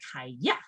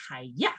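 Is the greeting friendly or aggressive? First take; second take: aggressive; aggressive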